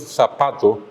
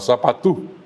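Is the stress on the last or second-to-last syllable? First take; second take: second-to-last; last. First: The stress is on the second-to-last syllable. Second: The stress is on the last syllable. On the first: This is the original Spanish form. "las palabras del castellano predominantemente son llanas" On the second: This is the form adapted to Guarani. "el guaraní un idioma con palabras predominantemente agudas"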